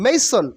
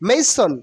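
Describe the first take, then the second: No difference in how they are said.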